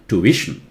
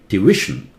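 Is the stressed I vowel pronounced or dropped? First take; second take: pronounced; pronounced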